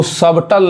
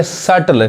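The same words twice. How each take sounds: First: सबटल said as "sub-tal", B sounded; B pronounced. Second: सटल said as "sattle", no B; silent B. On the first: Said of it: "सबटल नहीं पढ़ेंगे". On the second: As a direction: go straight to T in सटल. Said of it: "क्या पढ़ेंगे". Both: Shown as a demonstration.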